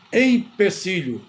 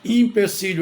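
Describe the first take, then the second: First: The first vowel sounds like 'e'. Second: The first vowel sounds like 'i'. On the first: The speaker calls it right. "é empecilho. É escrita com E" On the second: The speaker calls it wrong. "a palavra não é empecilho"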